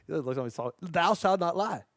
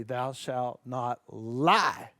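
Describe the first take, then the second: First: Slow, laughing through the words. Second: Slow, grave biblical proclamation; solemn commandment voice. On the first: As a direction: giggle as you repeat it. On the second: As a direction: intone it like scripture. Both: Shown as a demonstration.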